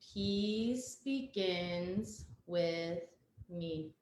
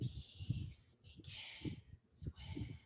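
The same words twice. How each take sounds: First: It is spoken in a normal voice. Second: It is spoken in a whisper.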